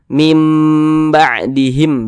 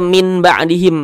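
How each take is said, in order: First: The first word ends with a nasal m sound. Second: The first word ends with a plain n sound. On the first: The speaker calls it right. "tapi dibaca mim ba'dihim begitu" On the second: The speaker calls it wrong. "jangan dibaca min ba'dihim"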